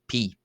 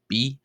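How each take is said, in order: First: The letter is said with a p sound. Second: The letter is said with a b sound. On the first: "while others will pronounce it as P" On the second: "some people will choose to pronounce this letter as B"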